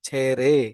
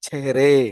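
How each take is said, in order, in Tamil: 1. h ஒலி கிட்டத்தட்ட இல்லாத அளவுக்கு மென்மையாகச் சொல்லப்படுகிறது. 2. h ஒலி கிட்டத்தட்ட இல்லாத அளவுக்கு மென்மையாகச் சொல்லப்படுகிறது.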